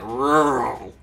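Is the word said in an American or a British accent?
American. An American accent with a growled, heavy r. The speaker calls it wrong. "He's like rural. I'm like, you're just growling at people"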